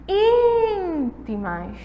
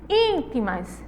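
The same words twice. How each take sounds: First: Íntimas with ÍN held very long and high; calling the word. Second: Said in the usual way. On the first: Shown as a demonstration. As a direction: call out "Íntimas", stretching the first syllable. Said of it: "O in". (chamar "Íntimas", alongando o ín) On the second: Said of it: "é simplesmente chamar".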